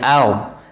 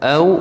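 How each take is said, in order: First: The vowel is said with a wider, open mouth. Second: The vowel is said with a narrow, small mouth. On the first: The speaker calls it wrong. "Kalau au itu Melayu" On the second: The speaker calls it right. "Au kecilkan mulut sebenarnya"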